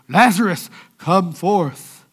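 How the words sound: It is said in a solemn religious voice.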